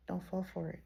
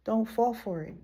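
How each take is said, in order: First: Repeated softly. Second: Said in the usual way. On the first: Shown as a demonstration. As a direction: drop it to a hushed echo.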